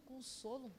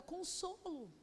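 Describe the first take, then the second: First: Softer, puzzled echo of consolo; quiet confused question. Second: Said in the usual way. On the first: Retold or imitated. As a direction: repeat the word as if you can't believe it. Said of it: "Eu falei". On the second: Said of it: "o Espírito Santo falou uma palavra".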